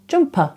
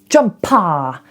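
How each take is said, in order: First: The ending is a very light, weak schwa. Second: The ending is a full, clear ah vowel. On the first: The speaker calls it right. "Just really give it a very light sound" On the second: The speaker calls it wrong. "Some of my students go jumpa"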